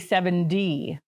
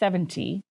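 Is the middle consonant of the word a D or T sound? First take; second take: D; T. First: The middle consonant sounds like a soft D. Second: The middle consonant is a clear T sound. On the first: This is the everyday local way of saying it. The speaker calls it wrong. "we schwa that T to a D. We say seventy" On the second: This is the word's proper form. The speaker calls it right. "It is seventy. That's the actual word"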